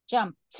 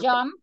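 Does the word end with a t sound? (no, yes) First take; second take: yes; no. First: The word ends with a final t sound. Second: The word ends without a final t sound. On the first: It marks the past tense. The speaker calls it right. "it's jumped" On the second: It sounds like the present tense. The speaker calls it wrong. "you don't say jump"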